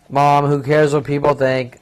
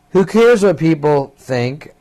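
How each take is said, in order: First: Said in the usual way. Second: Mock snappish mother, drawn out; half-hearted imitation of a mother snapping back. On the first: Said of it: "me, fourteen years old". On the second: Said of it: "Mother snapping".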